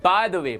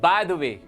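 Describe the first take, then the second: Both takes have the same delivery.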